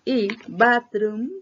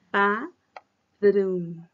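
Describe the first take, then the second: First: Bathroom stretched slowly and loud, like batroom; slow careful bathroom. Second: Bathroom said loud, tongue between the teeth on the th. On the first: Teacher showing the wrong way to say bathroom, slow and careful. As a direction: draw out bathroom with the T sound. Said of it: "no es bathroom". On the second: Teacher modelling the right bathroom for students, careful th. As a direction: push air past the tongue on bathroom. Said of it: "con este símbolo". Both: Shown as a demonstration.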